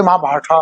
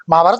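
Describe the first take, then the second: First: महाभारता with a final "aa" tacked on; mock the foreign way of saying महाभारता; wrong pronunciation. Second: महाभारत ending cleanly on the t, no final vowel; महाभारत without any trailing a; correct pronunciation. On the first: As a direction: say महाभारता with a clear extra long a at the end. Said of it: "कोई महाभारता बोलता है". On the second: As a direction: say महाभारत the pure Hindi way. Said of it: "महाभारत बोलो ना". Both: Shown as a demonstration.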